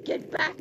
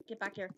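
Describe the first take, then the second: First: Louder, higher call; sudden shout. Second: Said in the usual way. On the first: Real, not acted. Player chasing someone, sudden louder shout. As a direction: yell it at someone fleeing.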